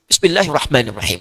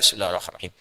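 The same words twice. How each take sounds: First: It is recited loudly so others hear. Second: It is recited very quietly, almost to himself.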